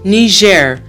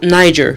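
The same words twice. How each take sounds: First: The name is said with a French-style pronunciation. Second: The name is said with an English-style pronunciation. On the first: The speaker calls it right. "French is the official language, and the pronunciation of the country's name is Niger" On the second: The speaker calls it wrong. "not Niger"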